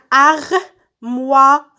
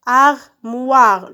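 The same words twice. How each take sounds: First: Armoire very slow, in separate beats; syllable by syllable. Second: Said in the usual way. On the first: Shown as a demonstration. Teacher cutting words into syllables, syllable by syllable. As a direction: draw out armoire as AR, MOI, RE with gaps. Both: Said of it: "je découpe les mots en syllabes".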